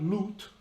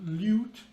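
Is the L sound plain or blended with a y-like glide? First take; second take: plain; glide. First: The L is a plain, ordinary L sound. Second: The L blends with a y-like glide. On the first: The speaker calls it wrong. "is not lute" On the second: The speaker calls it right. "the right way to say the word lute"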